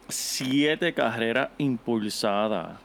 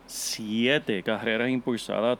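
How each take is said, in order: First: "siete carreras impulsadas" drawn out word by word; slow, emphatic. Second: Said in the usual way. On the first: Real, not acted. Co-host answers how many he had, slow and emphatic. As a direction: spell out the stat slowly for impact. Stresses stat, then repeats it.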